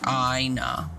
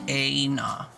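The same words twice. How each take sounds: First: The first syllable sounds like 'I'. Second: The first syllable rhymes with 'hey'. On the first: "or Aina. I" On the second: "rhyming with hey"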